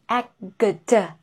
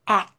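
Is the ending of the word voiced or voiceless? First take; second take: voiced; voiceless. First: The final consonants are voiced, with vibration. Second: The final consonants are voiceless, without vibration. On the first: The speaker calls it wrong. "not akgd, no" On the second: The speaker calls it right. "without vibration"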